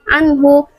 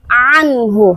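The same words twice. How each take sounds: First: The opening consonant is blurred and indistinct. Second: The opening consonant is clear and emphasized. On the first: The speaker calls it wrong. "pertengahan antara hamzah dan" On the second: The speaker calls it right. "harus ada penekanan anhu"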